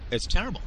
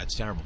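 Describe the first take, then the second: First: Terrible said high and rising, mock pity; a sing-song It's terrible with a big rise; overdone fake sorrow on terrible; mock sympathy. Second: Said in the usual way.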